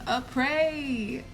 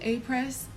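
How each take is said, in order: First: The word ends on a vowel, without S. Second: The word ends with a clear S sound. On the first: The speaker calls it right. "Y'all finally got me to say it properly" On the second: The speaker calls it wrong. "oh my God"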